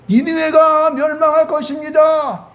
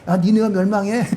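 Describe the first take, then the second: First: It is proclaimed in a loud voice. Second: It is said lightly and quietly.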